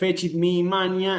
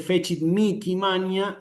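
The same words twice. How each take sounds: First: The h in mihi is silent. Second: The h in mihi sounds like k. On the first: It follows the rule of the written language. "la regla dice que la H es muda" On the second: It follows a church tradition. "respetando una tradición en la iglesia que con esta palabra la pronuncia así"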